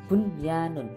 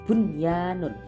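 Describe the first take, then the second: No difference in how they are said.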